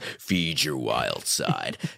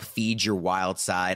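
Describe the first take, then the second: First: It is read in an exaggerated deep voice. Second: It is read in an ordinary speaking voice.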